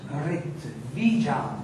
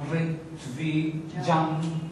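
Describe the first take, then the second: First: "ritvijam" slow and low, as one accented word, falling at the end. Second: "Ritvi jam" slow and soft, broken before jam; iambic rhythm. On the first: Teacher reciting the verse's last word, accented "ritvijam". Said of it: "this is the accent of the word". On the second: Teacher showing the last word doesn't fit, iambic "Ritvi jam". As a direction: split "Ritvi jam" into metrical feet, ignoring the word accent. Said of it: "if I read in iambic rhythm". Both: Shown as a demonstration.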